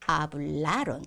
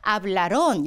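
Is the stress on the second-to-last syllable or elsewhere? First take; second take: second-to-last; elsewhere. First: The stress falls on the second-to-last syllable. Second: The stress falls away from the second-to-last syllable. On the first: The speaker calls it right. "N으로 끝났기 때문에 뒤에서 두 번째겠죠? 그래서 hablaron 이렇게 알맞게" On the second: The speaker calls it wrong. "hablaron 이렇게 하시는 분들 정말 정말 많아요. hablaron 하면 아센토 찍어야 됩니다"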